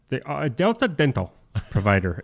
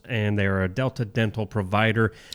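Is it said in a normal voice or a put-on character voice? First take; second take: character voice; normal. First: It is said in a put-on Toothy character voice. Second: It is said in a plain, normal voice.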